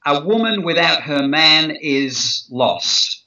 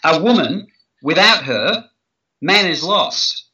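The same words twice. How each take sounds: First: A woman without her man is lost, weight on woman, slow; stress on woman. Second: A woman without her... man is lost, pause after her, slow. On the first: Negotiation trainer demonstrating emphasis, stressing woman. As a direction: lean on woman, flat falling tune. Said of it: "let me show you something". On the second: Trainer showing how phrasing flips the meaning, pausing after her. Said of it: "that's an entirely different meaning". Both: Shown as a demonstration.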